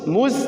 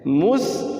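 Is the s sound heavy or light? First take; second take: light; heavy. First: The s sound is light and thin. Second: The s sound is heavy and thick.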